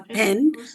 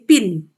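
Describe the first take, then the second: First: The vowel sounds like the e in pen. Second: The vowel sounds like the i in pin. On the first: "when they say pen, P E N" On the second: "they say pin"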